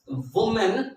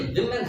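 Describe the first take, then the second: First: The first syllable sounds like 'wu'. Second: The first syllable sounds like 'wi'. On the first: The speaker calls it wrong. "वुमेन नहीं है" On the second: The speaker calls it right. "तो ये विमेन है"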